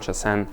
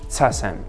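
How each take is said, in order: First: The word begins with a 'ch' sound. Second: The word begins with a 'ts' sound. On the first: This is the more Chinese-style pronunciation. "the cha, that's more Chinese" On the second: This is the more common Japanese pronunciation. "it was much more common to say tsasen"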